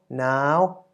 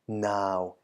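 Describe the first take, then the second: First: The syllable is said with a high tone. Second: The syllable is said with a low tone. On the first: "resulting in a high tone" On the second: "the deep or low version first"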